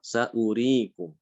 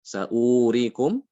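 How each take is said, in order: First: Saurikum read slowly with the wa kept short; correct reading. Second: Saurikum drawn out slowly as a wrong long vowel; wrong reading. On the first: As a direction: recite Saurikum slowly, vowel not lengthened. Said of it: "Harusnya apa?". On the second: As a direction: stretch the wa in Saurikum to show the mistake. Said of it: "Saurikum itu salah ya". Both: Shown as a demonstration.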